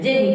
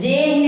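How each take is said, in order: First: The second vowel is cut short. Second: The second vowel is drawn out long. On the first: The speaker calls it right. "उसका हम उच्चारण ह्रस्व की तरह करते हैं" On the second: The speaker calls it wrong. "जे ही नहीं कह रहे हैं"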